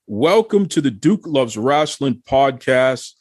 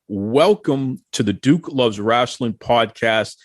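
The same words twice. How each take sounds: First: It is said with much more feeling and energy. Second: It is said flatly, with little feeling.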